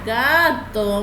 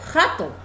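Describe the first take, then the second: First: It begins with a soft, voiced g sound. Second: It begins with a harsh, throaty h-like sound. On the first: The speaker calls it right. "yo quiero suave" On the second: The speaker calls it wrong. "si fuera fuerte, ¿cómo sonaría? Jato"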